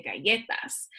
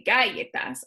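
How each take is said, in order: First: Said in the usual way. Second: "galletas" stressed on the first syllable, GA-lletas; wrong first stress. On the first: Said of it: "I say galletas". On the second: Shown as a demonstration. Teacher showing what she doesn't say, "galletas" with front stress. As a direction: hit the "ga" of "galletas" hard. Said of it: "I don't say galletas".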